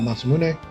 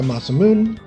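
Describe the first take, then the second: First: The final E is clearly pronounced. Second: The final E is not pronounced. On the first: "the proper pronounce pronunciation, the E" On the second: "which I think is natural"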